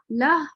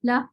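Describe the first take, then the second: First: لہ cut short on a silent ہ, lips rounded; stop with rounded lips. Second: لہ stopped on the ہ with the lips rounded. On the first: Teacher repeats the ishmam stop for the class. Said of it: "اور آپ نے ہونٹ کو گول کر لیا". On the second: Teacher demonstrates ishmam on a stop, lips rounded. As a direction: pause on لہ while rounding the lips. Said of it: "ہونٹ گول کر لیں". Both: Shown as a demonstration.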